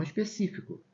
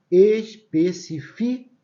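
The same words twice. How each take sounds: First: Específico at normal pace, strong CÍ; stress on CÍ. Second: Especifico syllable by syllable, loud, strong FI; stress on FI. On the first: Teacher giving the reading to avoid, específico stressed on CÍ. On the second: Teacher demonstrating the unaccented verb, Especifico slow with stress on FI. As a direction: slowly spell out es-pe-ci-FI-co in Especifico. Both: Shown as a demonstration. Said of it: "e não específico".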